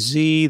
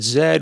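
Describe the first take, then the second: First: The letter is pronounced like zee. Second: The letter is pronounced like zed. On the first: This is how the speaker's own community says it. "we say" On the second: This is how the other person says it. "So you said"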